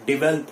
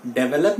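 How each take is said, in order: First: 'डेवलप' as di-VEL-up, stress on vel; short di, stressed vel in 'डेवलप'; right pronunciation. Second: 'डेवलप' as DE-ve-lap, stress first; wrong pronunciation. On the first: Teacher correcting students, right pronunciation di-VEL-up. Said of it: "डेवलप होगा". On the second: Teacher rejecting the mistake, wrong pronunciation DE-ve-lap. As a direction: open de at the start of 'डेवलप'. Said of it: "डेवलप नहीं होगा". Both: Shown as a demonstration.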